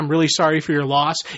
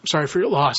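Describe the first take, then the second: First: The voice is steady and composed. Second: The voice is choked, holding back tears.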